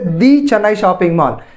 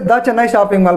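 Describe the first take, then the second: First: The word 'the' is said with emphasis. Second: The word 'the' is said plainly, unemphasized. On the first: The brand name is being highlighted. "they are emphasizing their brand name" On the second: It follows the normal rule before a consonant. "actually we have to say"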